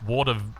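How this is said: The word begins with a W sound. "if you're not Iranian, it's water"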